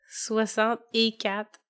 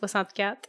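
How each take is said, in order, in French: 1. Il est prononcé avec un accent régional marqué. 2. Il est prononcé avec un accent standard neutre. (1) "À chaque fois que tu dis des dates, tu me fais rire" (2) "au lieu de juste"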